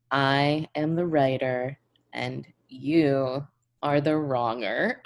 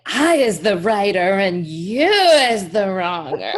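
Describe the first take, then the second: First: Slow, smug declaration; mock righteous. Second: Laughing, goofy taunting voice; sing-song silly mockery; silly mocking voice. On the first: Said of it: "I'll be like". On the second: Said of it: "And he'll be like".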